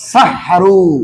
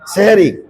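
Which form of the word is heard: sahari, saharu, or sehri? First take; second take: saharu; sehri. First: The word is said as sa-ha-ru, ending in oo. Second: The word is said as seh-ri, with two syllables. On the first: The speaker calls it right. "আসলে বল শব্দ হলো সাহারু।" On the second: The speaker calls it wrong. "এই দুইটাই ভুল।"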